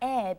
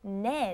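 First: The syllable begins directly with a vowel. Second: The syllable begins with an n sound. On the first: The final consonant does not carry over. The speaker calls it wrong. "not 에" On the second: The final consonant carries over into the particle. The speaker calls it right. "you pronounce it 네"

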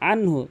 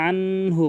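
First: The n passes quickly without a nasal hum. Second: The n is held with a nasal hum. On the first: The speaker calls it right. "এখানে আনহু আনহু দ্রুত বলতে হবে, গুন্না করা যাবে না" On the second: The speaker calls it wrong. "অধিকাংশ লোক করে পরে আনহু বলে"

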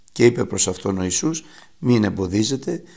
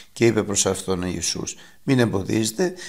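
The two takes are said the same way.

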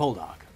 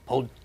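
First: The stress is on the first syllable. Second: The stress is on the second syllable. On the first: The speaker calls it wrong. "As opposed to" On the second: The speaker calls it right. "You're supposed to say it with the emphasis on the second syllable"

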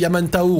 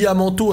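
First: The name ends with a 'tao' diphthong sound. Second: The name ends with a plain 'to' sound. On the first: The speaker calls it right. "alors que c'est Yamantao" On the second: The speaker calls it wrong. "Je dis Yamanto"

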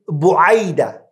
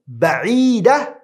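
First: The word is said as diminutive bu'ayd. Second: The word is said as plain ba'id. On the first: "مصغرة" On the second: "مكبرة"

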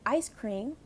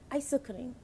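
First: It is said with English sounds. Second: It is said with Korean sounds. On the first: "words that we are familiar with" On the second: "adjusted to the sounds in the Korean language"

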